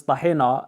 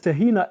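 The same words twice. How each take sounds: First: "tahina" with an Arabic-style "hay" and open final ah; Arabic pronunciation. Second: "tahina" read the English way, tuh-HEE-nuh; English pronunciation. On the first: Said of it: "and then in Arabic". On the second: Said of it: "here it says tahina extra". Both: Shown as a demonstration.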